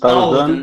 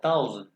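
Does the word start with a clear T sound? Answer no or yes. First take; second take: no; yes. First: The word starts without a clear T sound. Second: The word starts with a clear T sound. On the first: The speaker calls it wrong. "थाउजेंड नहीं" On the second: The speaker calls it right. "टी के साथ थाउजेंड"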